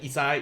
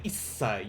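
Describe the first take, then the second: First: The s sound is short, with no hold. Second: The s sound is held with a brief pause. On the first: The speaker calls it wrong. "You're not just saying isai" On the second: The speaker calls it right. "you pause, you hold it a little bit"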